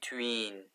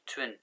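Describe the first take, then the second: First: The vowel is long, like 'ee'. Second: The vowel is short, like 'i'. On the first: The speaker calls it wrong. "Don't say tween" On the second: The speaker calls it right. "Twin, twin"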